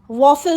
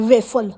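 First: The first vowel sounds like 'aw'. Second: The first vowel sounds like 'ay'. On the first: The speaker calls it right. "वॉफल असतं ते" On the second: The speaker calls it wrong. "वेफल म्हणे वेफल"

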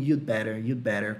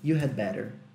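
First: The d sound is almost silent. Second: The word had is said in full. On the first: "como se o D quase não existisse" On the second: "ele vem de had"

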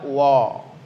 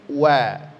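First: The wa is heavy, with lips not spread. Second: The wa is light, with lips spread. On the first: The speaker calls it wrong. "jangan dibaca wa" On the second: The speaker calls it right. "Waw huruf tipis, senyumkan"

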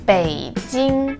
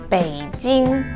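First: It is said with Mandarin third and first tones. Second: It is said with English-style pronunciation. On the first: The speaker calls it right. "The correct way to pronounce this city is Beijing, third tone and first tone" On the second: The speaker calls it wrong. "we don't really call it Peking or Beijing"

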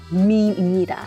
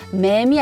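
First: The vowel sounds like the ee in seem. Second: The vowel sounds like the e in men. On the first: The speaker calls it right. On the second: The speaker calls it wrong. "맴이 아니고"

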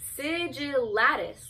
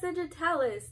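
First: The t sound comes after the l sound. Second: The t sound comes before the l sound. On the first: The speaker calls it right. "Like the T is after, it's like, it's after the L's" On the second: The speaker calls it wrong. "I mispronounce"

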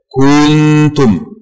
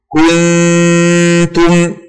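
First: The first vowel is lengthened into a long u. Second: The first vowel is a short u. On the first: The speaker calls it wrong. "فيزيدون واوا بعد الكاف" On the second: The speaker calls it right. "الكاف مضمومة فقط دون زيادة أو نقصان"

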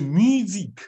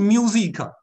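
First: It is said with a French pronunciation. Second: It is said with an English pronunciation. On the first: The speaker calls it right. "是music" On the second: The speaker calls it wrong. "太标准的英文了，不是music"

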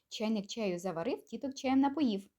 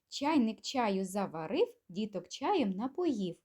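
First: It is said at a quick pace. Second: It is said at a moderate, unhurried pace.

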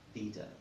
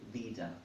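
Both takes have the same delivery.

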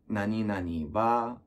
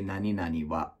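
First: The pitch rises up on the final particle. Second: The pitch stays low on the final particle. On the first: The speaker calls it wrong. "I would like raise my tenyoha, the like particles" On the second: The speaker calls it right. "when it's supposed to say"

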